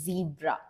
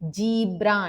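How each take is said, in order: First: The word begins with a z sound. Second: The word begins with a j sound. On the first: The speaker calls it right. "No" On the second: The speaker calls it wrong. "అంటారు"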